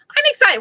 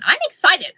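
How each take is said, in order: First: Much higher, louder; excited. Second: Excited. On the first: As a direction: squeal it with real glee. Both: Real, not acted.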